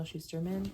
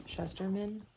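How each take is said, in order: First: Shusterman said with an "oo" in the first syllable; first-try pronunciation. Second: Shusterman said with a short first vowel, "SHUS-ter-man"; corrected pronunciation. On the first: Naming his favourite author, Shusterman first tried as "SHOO-ster-man". Tries name, then corrects herself. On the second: Correcting herself on the author's name, Shusterman as "SHUH-ster-man". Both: Real, not acted.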